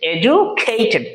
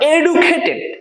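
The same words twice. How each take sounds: First: The 'du' is said with a j sound. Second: The 'du' is said with a d sound. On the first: The speaker calls it right. "বলো আমার সাথে বলো এডুকেটেড" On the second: The speaker calls it wrong. "Not এডুকেটেড, এডু বলতে কোনো কথা নাই"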